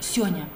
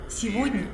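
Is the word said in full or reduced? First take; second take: reduced; full. First: The word is squeezed into two short syllables. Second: The word is said in full, all syllables clear. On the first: The speaker calls it wrong. "вы произнесли как «сёня»" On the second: The speaker calls it right. "Слово «сегодня»"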